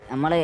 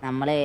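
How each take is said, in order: Both takes have the same delivery.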